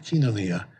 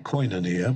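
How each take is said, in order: First: The first syllable is pronounced 'kee'. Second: The first syllable is pronounced 'koy'. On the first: The speaker calls it right. "but kinonia" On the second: The speaker calls it wrong. "if you have a barbaric Erasmian pronunciation, you'd say koinonia"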